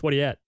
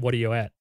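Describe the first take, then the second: First: It is said very fast. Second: It is said at a normal speed.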